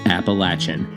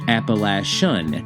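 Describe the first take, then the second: First: The consonant is pronounced as a 'ch' sound. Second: The consonant is pronounced as an 'sh' sound. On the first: The speaker calls it right. "That's the correct way to say it. Sort of" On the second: The speaker calls it wrong. "I made the ch a sh"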